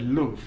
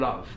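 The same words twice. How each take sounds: First: It is said in a Liverpool accent. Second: It is said in received pronunciation. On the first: "in their spoken accents ... they would have said love" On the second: "said with sort of that received pronunciation"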